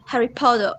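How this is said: Potter ends with a rounded o sound. "Australian people pronounce like O"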